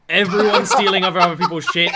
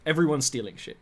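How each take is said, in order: First: Laughing. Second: Said in the usual way. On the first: Real, not acted. Same words said twice.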